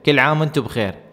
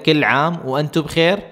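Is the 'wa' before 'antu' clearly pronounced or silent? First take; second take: silent; clear. First: The 'wa' before 'antu' is dropped entirely. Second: The 'wa' before 'antu' is clearly pronounced. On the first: "जब आप सुन रहे होते हैं तो इस तरह होता है" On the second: "असल में वो कहते हैं"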